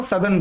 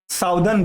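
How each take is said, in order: First: सदर्न said with a short "suh", "suh-dhern"; correct pronunciation. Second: साउदर्न said with "sau" as in south, "sau-dern"; common wrong pronunciation. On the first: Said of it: "साउदर्न नहीं बोलते". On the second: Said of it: "बहुत लोग". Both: Shown as a demonstration.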